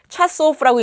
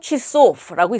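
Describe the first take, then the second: First: The first vowel sounds like a. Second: The first vowel sounds like i. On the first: The speaker calls it wrong. "차소프라고 읽는 것이 아니라" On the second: The speaker calls it right. "취소프라고 읽습니다"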